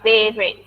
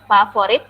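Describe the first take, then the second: First: It is said the English way, with a clear v. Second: It is said as the Indonesian word, without English v. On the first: The speaker calls it right. "tapi favorite. V" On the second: The speaker calls it wrong. "Bukan favorit"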